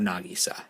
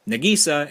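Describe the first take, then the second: First: The name is said with a Japanese pronunciation. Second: The name is said with an English pronunciation. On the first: This is how the Japanese version says it. "and not Nagisa" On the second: This is how the English dub says it. "it's going to be pronounced Nagisa"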